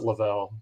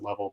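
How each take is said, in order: First: The name does not sound like 'level'. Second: The name sounds like the word 'level'. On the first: This is how the family says the name now. "so now we pronounce it Lavelle" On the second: This is how the family said the name in childhood. "if we pronounced it Level"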